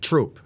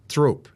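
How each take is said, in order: First: The name begins with a plain t sound. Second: The name begins with a th sound. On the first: This is how the town's name is actually said. The speaker calls it right. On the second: This is how the spelling tempts you to say it. The speaker calls it wrong. "You want to say Throop"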